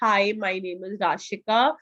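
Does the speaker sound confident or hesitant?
hesitant. It is said hesitantly, with fillers and pauses. The speaker does not hold the listener's interest. The speaker calls it wrong. "if I'm saying something like this, ... this won't actually interest a recruiter"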